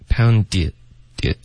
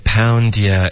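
First: There is a short break after 'pound'. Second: The words flow together without a break. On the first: The speaker calls it wrong. "就是这里就顿了一下" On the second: The speaker calls it right. "这里要稍微连贯一点"

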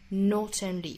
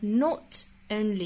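First: The two words are linked without a break. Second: A short pause follows the word not. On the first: "跟后面的 only 是可以做连读的" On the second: "我们也可以在 not 后面停顿一下，强调一下 not 这个单词"

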